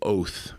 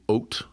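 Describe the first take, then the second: First: It is said with a traditional biblical pronunciation. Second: It is said with a modern Israeli pronunciation. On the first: "a Bible guy would say oath" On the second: "I have a contemporary pronunciation"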